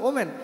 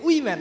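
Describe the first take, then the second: First: The word begins with an 'o' vowel sound. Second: The word begins with a 'wi' sound. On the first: This is the original pronunciation. The speaker calls it right. "আসলে উচ্চারণটা ছিল ওমেন" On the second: Women are made to sound like men. The speaker calls it wrong. "কিন্তু এটাকে বলছে উইম্যান"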